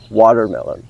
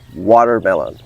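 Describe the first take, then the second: First: It is said with an American English accent. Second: The same.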